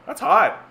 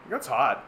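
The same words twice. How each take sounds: First: High, loud mock exclamation on hot; mock outcry. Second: Said in the usual way. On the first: Exaggerated Canadian heat complaint.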